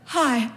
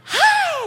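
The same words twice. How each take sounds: First: Small, subdued imitated reply; sheepish greeting. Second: Very high, drawn-out hello; overeager greeting. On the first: Caught shoppers replying before they run away, sheepish. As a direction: answer reluctantly, without any lift in pitch. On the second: Retold or imitated. Speaker surprising the shoppers behind her, overeager. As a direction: pounce on them with a squealed, long greeting. Turns suddenly to greet the gossipers.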